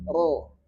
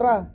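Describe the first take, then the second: First: The r sound is thick and heavy. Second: The r sound is thin and light. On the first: "Ini kan tebal" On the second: "Jadi tipis itu ra"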